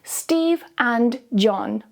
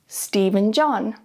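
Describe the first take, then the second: First: Said slowly, and is full with a clear d. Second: Said quickly, and shrinks to a weak un. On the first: "slowly with the strong form" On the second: "quickly with the weak form"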